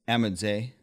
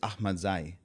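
First: The name is said with an American pronunciation. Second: The name is said with a traditional Afghan pronunciation. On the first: "The American way is" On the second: "the traditional Afghan way is"

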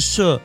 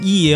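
First: The syllable is pronounced she. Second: The syllable is pronounced ye. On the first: The speaker calls it right. "要念社" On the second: The speaker calls it wrong. "不能够念叶哦"

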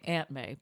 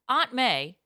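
First: Aunt is said the general American way, like 'ant'. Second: Aunt is said the Boston way, like 'ahnt'.

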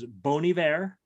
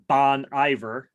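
First: The name is said with a French pronunciation. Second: The name is said with an English pronunciation. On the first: "I'm not going with the French pronunciation" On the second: "as they say in Eau Claire"

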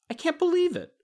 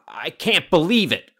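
First: It is said in a happy tone. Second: It is said in an angry tone.

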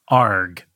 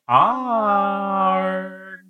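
First: The word is said short. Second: The word is drawn out long.

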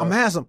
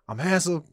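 First: It is said very loudly. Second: It is said at a moderate volume.

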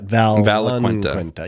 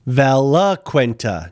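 First: It is said with an added N sound. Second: It is said without an added N sound. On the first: The speaker calls it wrong. "I've been throwing an N in there and I got chided for it" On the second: The speaker calls it right. "Valaquenta, not"

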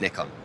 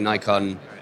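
First: It is said in the European pronunciation. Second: It is said in the US pronunciation. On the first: This is how it is said in Europe and Japan. "in Europe, and in fact in Japan ... it's Nikon" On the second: This is how it is said in the US. "our US team definitely say Nikon"

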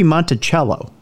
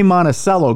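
First: It uses another state's pronunciation of the name. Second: It uses the Minnesota pronunciation of the name. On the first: This is how another state says it. "It could be Monticello" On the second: This is the local pronunciation. "that's how we pronounce it here in Minnesota"

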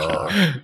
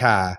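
First: It is said in a standard accent. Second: It is said in a Boston accent.

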